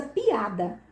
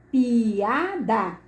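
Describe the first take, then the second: First: Said in the usual way. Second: "Piada" drawn out as pi, a, da; syllable by syllable. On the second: Shown as a demonstration. Teacher showing each vowel's syllable, "Piada" split slowly. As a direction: pull "Piada" apart, one beat per syllable.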